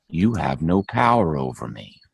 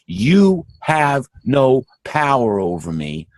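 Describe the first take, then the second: First: Said in the usual way. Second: Slow, each word weighed and pressed; firm declaration. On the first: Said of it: "and the final line is". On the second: Pretend. Preacher telling listeners what to say, slow and firm. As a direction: declare it slowly, with authority. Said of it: "Once we say".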